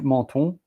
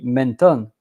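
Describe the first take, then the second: First: It is pronounced the French way. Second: It is pronounced the English way. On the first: "but in French, menton" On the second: "if I have to say it in English, it will be menton"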